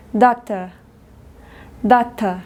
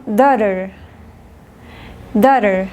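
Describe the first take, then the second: First: "doctor" said as daughter, da-tuh with crisp T; British "doctor" for daughter, no final R; British hard T. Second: "daughter" with T tapped and final R; American "daughter", like da-der; American flapped T. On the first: Teacher contrasting British with American, hard T in "doctor". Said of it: "Inglés británico". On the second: Teacher contrasting American with British, flapped T in "daughter". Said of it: "Inglés americano". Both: Shown as a demonstration.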